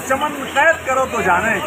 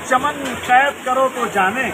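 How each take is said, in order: Both takes have the same delivery.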